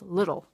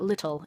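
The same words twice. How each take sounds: First: The middle consonant sounds like a D. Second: The middle consonant is a clear T. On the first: The speaker calls it right. "they're pronounced with D's and not T's" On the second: The speaker calls it wrong. "It's not little"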